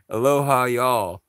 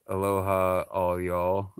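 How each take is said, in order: First: Aloha, y'all said loud and high, y'all as one syllable; short y'all. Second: All y'all with all drawn out; stress on all. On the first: Correcting viewers, a loud bright aloha, y'all. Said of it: "No, it's". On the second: Showing viewers the misheard version, all y'all. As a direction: put weight on all in all y'all. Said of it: "which might sound like". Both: Shown as a demonstration.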